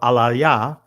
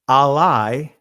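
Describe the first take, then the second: First: The word ends with an extra 'ah' sound. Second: The word ends without a final 'ah' sound. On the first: "Or Alaya" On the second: "you can pronounce it if you drop the ... last ah"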